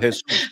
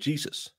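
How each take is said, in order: First: The name is pronounced the Spanish way. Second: The name is pronounced the English way. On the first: The speaker calls it right. "You would call him Jesus" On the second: The speaker calls it wrong. "you wouldn't call him Jesus"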